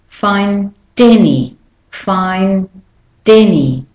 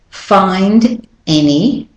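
First: The d runs into the next word. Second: The two words are said separately.

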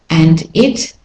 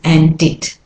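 First: The words are said separately. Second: The words run together smoothly.

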